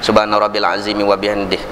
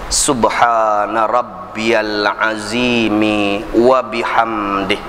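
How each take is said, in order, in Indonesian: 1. Dibaca dengan cepat. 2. Dibaca sangat lambat dan hati-hati. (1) "Kalau hadar" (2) "Itu tahqiq"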